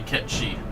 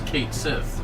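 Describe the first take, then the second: First: The name sounds like one word, Ketchi. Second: The name sounds like two words, Kate Sith. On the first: This is the original mythological pronunciation. "but it's really Ketchi" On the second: This is how the game pronounces it. "in F F seven Rebirth is Kate Sith"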